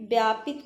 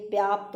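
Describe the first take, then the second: First: व्यापित with an extra इ; व्यापित as the mistake; wrong form. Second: व्याप्त with no इ; व्याप्त as the right form; correct form. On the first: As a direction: says व्यापित, the wrong word. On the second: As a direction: says व्याप्त with a clipped ending. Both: Shown as a demonstration. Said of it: "कोई शब्द नहीं है".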